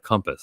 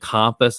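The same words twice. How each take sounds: First: Compass is said with the standard pronunciation. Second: Compass is said with the local pronunciation. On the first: The speaker calls it right. "instead of compass" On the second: The speaker calls it wrong. "I was saying compass"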